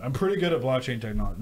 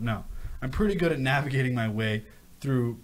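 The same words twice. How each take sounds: First: Mock boast. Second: Said in the usual way. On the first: Real, not acted.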